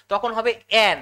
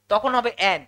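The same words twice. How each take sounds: The two takes are said the same way.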